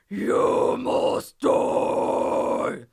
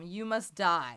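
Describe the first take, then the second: First: A gritty scream with rounded lips, sounding lower. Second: A gritty scream with unrounded lips, sounding brighter. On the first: "I'm rounding the lips" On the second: "It's kind of like metal sounding"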